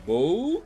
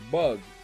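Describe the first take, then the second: First: The vowel is long, like oo. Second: The vowel is short, like uh. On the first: "but a long U sound" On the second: "it's usually the short U sound"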